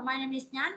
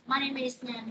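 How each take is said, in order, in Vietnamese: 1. Giọng lên ở cuối câu. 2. Giọng xuống ở cuối câu. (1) "không có lên giọng cuối câu được" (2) "thì con sẽ xuống giọng ha"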